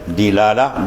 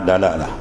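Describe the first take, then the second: First: The first consonant is followed by an i vowel. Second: The first consonant is followed by an a vowel. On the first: "Dalu dibaca tiga wajah" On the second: "Dalu dibaca tiga wajah"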